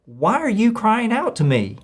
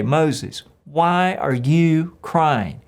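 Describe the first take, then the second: First: Higher, a mild rebuke from God; God rebuking. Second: Very slow, drawn-out confrontation; God confronting. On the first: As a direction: ask it as a gentle challenge from above. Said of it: "the Lord said to Moses". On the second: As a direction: stretch out the question like a patient father. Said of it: "God has to confront him in the moment and say". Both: Acted.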